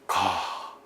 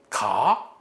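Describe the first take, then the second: First: It is said as an exclamation. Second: It is said as a question. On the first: It expresses strong feeling. "이건 감탄입니다" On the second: It asks something. "이건 의문이죠"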